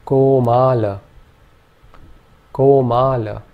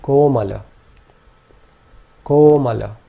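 First: Komala ending in a short a; short final vowel. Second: Komala with a long o and two short a; Komala: long ko, quick mala; short middle and final vowels. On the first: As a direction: Komala with the last a clipped. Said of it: "In this case, we would say". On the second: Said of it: "this would be pronounced". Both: Shown as a demonstration.

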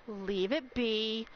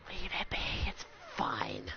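First: Slow, lowered voice; slow, low, controlled request; measured plea. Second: Low, fading whisper; very soft, low resignation; hushed plea. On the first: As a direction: say it slowly, reining it in. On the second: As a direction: let it fade to a whisper. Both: Real, not acted. Telling viewers to stop gifting.

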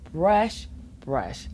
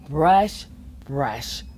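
No difference in how they are said.

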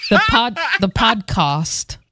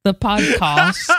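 First: Attempted British accent, slow; drawn-out mock British "podcast". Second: "podcast" in a put-on British accent; slow, careful British-sounding "the podcast". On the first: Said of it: "I can't even do a British accent". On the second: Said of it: "That's how you say it".

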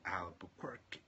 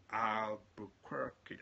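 First: Albuquerque whispered to himself; whispered attempt. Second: Albuquerque sounded out very slowly, syllable by syllable; careful pronunciation. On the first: Preacher trying the town name again, whispered. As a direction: mouth Albuquerque under the breath. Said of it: "never been able to pronounce that name". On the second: Preacher struggling with a town name, slow careful attempt. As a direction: drag Albuquerque out slowly as if testing it. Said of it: "I can never pronounce that name". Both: Shown as a demonstration.

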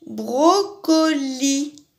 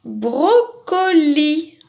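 First: "Brocoli" drawn out again, slow and even; patient slow repeat of "Brocoli"; slow syllable reading. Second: "Brocoli" said very slowly, every syllable drawn out; slow teacher's spelling out of "Brocoli"; slow syllable reading. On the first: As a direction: linger on each syllable of "Brocoli". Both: Shown as a demonstration. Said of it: "ça finit comme tapis".

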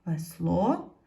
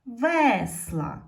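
First: "Весло" stressed on the final о, е left unstressed; "Весло" as a lead-in, weight on the last syllable; stress on second syllable. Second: "весла" with a loud, drawn-out stressed е; "весла" stressed on ве, the е clear and long; stress on first syllable. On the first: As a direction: say "Весло" with the beat on ло, pitch rising. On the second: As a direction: punch the first syllable of "весла", then fall. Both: Shown as a demonstration. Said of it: "щоб ненаголошена е стала наголошеною".

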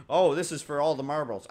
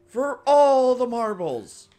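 First: Said in the usual way. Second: Higher, louder and slow, a grand pronouncement; epic dramatic voice. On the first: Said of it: "You know how they say". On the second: Pretend. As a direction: boom it out like the climax of a film. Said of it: "I don't know why I'm talking like this".

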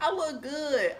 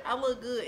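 First: Laughing boast. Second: Said in the usual way. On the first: Real, not acted. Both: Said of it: "Like, I'm cute".

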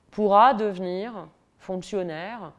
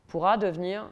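First: Slow, louder, hit "pourra" hard and let it fall; stress on pourra. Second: Said in the usual way. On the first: Shown as a demonstration. Lecturer to audience on the exam system, slow emphatic "pourra". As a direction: lean on "pourra", drawing the words out.

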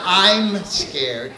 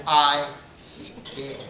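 First: Said in the usual way. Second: "I scared" said without am, soft; pidgin I scared. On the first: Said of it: "it's not". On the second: Shown as a demonstration. Comedian teaching the pidgin line, soft "I scared". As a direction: drop the am: "I scared". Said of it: "S C E D".

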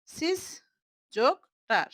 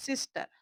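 First: সিস and টার said as two separate pieces; teacher splitting সিস্টার in two; broken into syllables. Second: Said in the usual way. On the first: Shown as a demonstration. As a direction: break সিস্টার apart, a pause between সিস and টার. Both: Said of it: "ভেঙে ভেঙে যদি শব্দটা তৈরি".

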